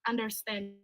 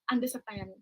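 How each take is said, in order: First: It is said in a standard English accent. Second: It is said in a Thai English accent. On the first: "Kalau kita ngomong ngerti kan understand gitu ya" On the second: "Tapi kalau orang Thai itu ngomongnya understand"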